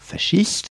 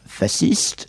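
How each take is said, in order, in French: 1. La consonne du milieu se prononce 'sh'. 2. La consonne du milieu se prononce 's'. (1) "ce qui est la dérivée directe du fascisme italien" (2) "ce qui dérive davantage du mot français faisceau"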